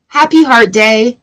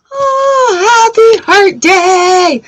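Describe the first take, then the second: First: Said in the usual way. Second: Very high, drawn-out playful squeal; over-the-top singsong well-wishing; gushing mock greeting. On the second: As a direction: gush it in a hammed-up high voice, slowly. Repeats greeting in exaggerated high voice.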